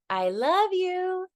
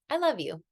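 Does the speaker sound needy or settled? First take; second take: needy; settled. First: It sounds needy, as if expecting a reply. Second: It sounds settled, as a complete statement. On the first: The speaker wants to hear it said back. The speaker calls it wrong. "when they say it like that" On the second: The speaker asks for no response. The speaker calls it right. "that's a complete sentence"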